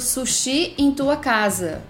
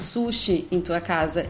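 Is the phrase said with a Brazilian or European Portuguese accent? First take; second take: Brazilian; European. First: It is said with a Brazilian Portuguese accent. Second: It is said with a European Portuguese accent.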